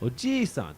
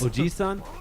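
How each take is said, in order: First: The 'i' vowel is held long. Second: The 'i' vowel is short. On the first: It refers to a grandfather. "grandfather. ... you get a longer e because you're old" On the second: It refers to an uncle.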